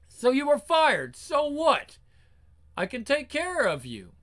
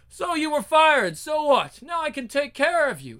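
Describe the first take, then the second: First: It is said in the first character voice. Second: It is said in a changed character voice.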